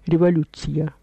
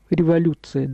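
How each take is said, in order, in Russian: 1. Звук ц произносится мягко. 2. Звук ц произносится твёрдо. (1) "Тогда говорили революция с мягким «ц»" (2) "Мы говорим революция"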